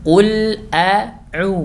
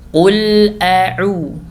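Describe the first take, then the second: The two takes are said the same way.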